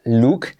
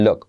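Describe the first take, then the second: First: Said in the usual way. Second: "look" with a short, relaxed vowel, like "lok"; native "look" vowel. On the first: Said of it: "La look se convierte en look". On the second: Shown as a demonstration. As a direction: demonstrate "look" as "lok", not "luk". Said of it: "se convierte en look". ("look" pronunciado casi como "lok")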